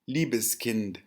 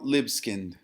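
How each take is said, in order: First: The name is pronounced with German sounds. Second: The name is pronounced with American English sounds. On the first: "auf Deutsch" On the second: "would be the pronunciation in American English"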